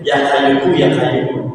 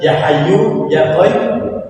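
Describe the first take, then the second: First: The words are said with k sounds throughout. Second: The first word is said with an h sound. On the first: The speaker calls it wrong. "Saya baca ini kan" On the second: The speaker calls it right.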